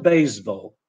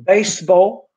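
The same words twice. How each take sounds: First: BASEBALL with z, BAYZ-ball; Polish-style Z error. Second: BASEBALL with s, BAYSS-ball; English S in BASEBALL. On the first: Teacher showing what not to say, wrong z sound. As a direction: mispronounce BASEBALL with a buzzing z. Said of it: "pronounced in Polish with z". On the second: Teacher modelling English for Polish learners, correct s sound. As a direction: say BASEBALL with a hissing s. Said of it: "is not baseball". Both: Shown as a demonstration.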